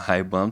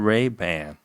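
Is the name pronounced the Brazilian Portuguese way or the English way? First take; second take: Brazilian Portuguese; English. First: It is said with Brazilian Portuguese sounds. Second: It is said with English sounds. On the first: The speaker calls it wrong. "eles vão falar Ray-Ban porque eles trouxeram para o português" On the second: The speaker calls it right. "o correto é Ray-Ban"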